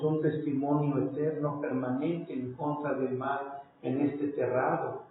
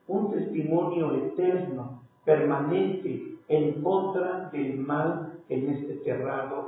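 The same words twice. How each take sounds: First: The phrase is spoken at a normal, faster pace. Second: The phrase is spoken noticeably more slowly.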